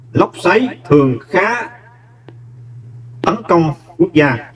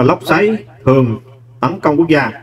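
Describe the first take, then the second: First: Slow, careful, each word spaced, pitch a little up; slow dictation. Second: Said in the usual way. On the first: Shown as a demonstration. Teacher reading the answer sentence slowly to students.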